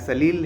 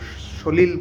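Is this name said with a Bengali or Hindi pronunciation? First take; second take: Hindi; Bengali. First: It starts with 's' and an 'a' vowel. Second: It starts with 'sh' and an 'o' vowel. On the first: This is how non-Bengali Hindi speakers say it. "उस तरीके से pronounce करोगे" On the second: This is how Bengalis say it to sound sweeter. "हम लोग उसको शोलील बोलेंगे"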